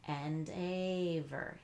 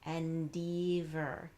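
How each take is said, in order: First: The second syllable has a long A vowel. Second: The second syllable has a long E vowel. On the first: "if you tried a long A sound" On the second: "we tried long E"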